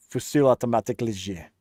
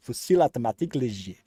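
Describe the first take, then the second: First: Fast French accent on "Fusil automatique léger", rolled out with relish. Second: Relaxed French accent on "Fusil automatique léger", rolled out again. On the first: A streamer savouring the French name in a French accent. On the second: A streamer repeating the French name for fun, French accent. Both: Shown as a demonstration. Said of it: "say it in an accent".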